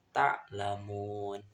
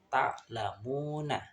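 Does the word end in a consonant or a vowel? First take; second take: consonant; vowel. First: The word ends on a bare consonant. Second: The word ends with an added vowel. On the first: The speaker calls it right. "tapi dibaca" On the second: The speaker calls it wrong.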